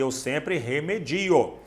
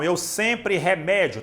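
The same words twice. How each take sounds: First: Eu sempre remedio with stress on di, slowly and softly; right stress example. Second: Eu sempre remédio with stress on mé, said slowly; wrong stress example. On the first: Teacher giving students the correct remedio, stressed on di. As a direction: say remedio with the weight on di, gently. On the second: Teacher showing students the mistaken remédio, stressed on mé. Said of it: "tá errado". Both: Shown as a demonstration.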